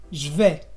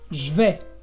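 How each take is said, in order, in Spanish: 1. La vocal de je se omite. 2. La vocal de je se omite.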